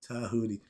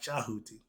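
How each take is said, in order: First: The name begins with a t sound. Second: The name begins with a ch sound. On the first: The speaker calls it right. "They call him Tahuti" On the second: The speaker calls it wrong. "not Chahuti"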